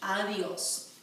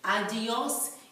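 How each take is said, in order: First: The d is soft, almost like th. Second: The d is pronounced hard and strong. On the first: The speaker calls it right. "it's more of a soft T H" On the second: The speaker calls it wrong. "a harsh adiós"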